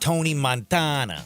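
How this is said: The name is said in a put-on movie accent. "gotta throw the accent in there"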